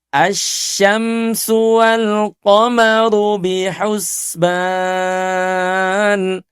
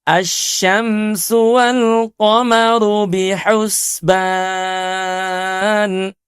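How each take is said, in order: Both takes have the same delivery.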